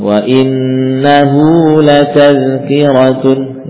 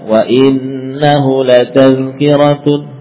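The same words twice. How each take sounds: First: The vowel after 'h' is held long. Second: The vowel after 'h' is kept short. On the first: The speaker calls it right. "Harus dibaca panjang" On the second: The speaker calls it wrong. "bukan wa innahu latazkiratun, tapi dipanjangkan"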